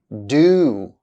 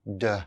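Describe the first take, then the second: First: The word is said fully with its full vowel. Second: The word is reduced with a weak vowel. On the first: "here are the strong and weak forms of auxiliary verbs" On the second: "then their weak forms"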